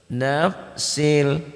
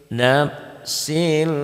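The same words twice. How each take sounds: No difference in how they are said.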